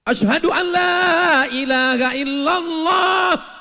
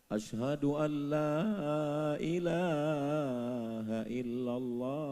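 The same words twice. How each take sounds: First: It is called out loudly. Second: It is said softly and gently.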